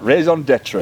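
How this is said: It is said in a Sheffield accent.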